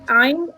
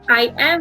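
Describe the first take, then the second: First: It is said as one contracted word. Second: It is said as two full words.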